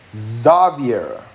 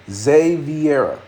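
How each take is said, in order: First: Xaviera said slowly with "Za", zah-vee-AIR-uh; corrected Xaviera. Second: Xaviera drawn out slowly, zay-vee-AIR-uh; slow careful Xaviera. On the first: Told it starts with Za, says the name slowly, correcting himself. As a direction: stretch out Xaviera, opening on a broad zah. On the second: Checking the name's pronunciation, slow and careful. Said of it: "I was gonna say Xavier, but". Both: Shown as a demonstration.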